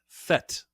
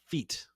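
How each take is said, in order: First: The word is said like French 'fête'. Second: The word is said like English 'feet'. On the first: The speaker calls it right. "It is fete, which is the French word for party" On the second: The speaker calls it wrong. "it's not feet"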